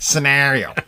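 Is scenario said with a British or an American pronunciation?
American. The word is said the American way. The speaker calls it wrong. "not scenario"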